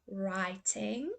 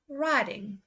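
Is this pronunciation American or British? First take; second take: British; American. First: It is said in a British accent. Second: It is said in an American accent. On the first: "first say the U K pronunciation" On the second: "then I will say the U S"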